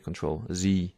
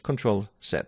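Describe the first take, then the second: First: The final letter is pronounced 'zee'. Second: The final letter is pronounced 'zed'. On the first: "Americans would say Control Z" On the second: "I say Z"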